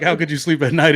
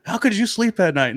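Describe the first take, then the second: First: Plain curious question ending in a rise on "night"; "How could you sleep at night?" asked neutrally, rising on night. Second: "How could you sleep at night?" with could hit high and falling; accusing question. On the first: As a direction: demo of a harmless question. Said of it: "Not like". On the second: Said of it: "The way you said it". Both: Shown as a demonstration.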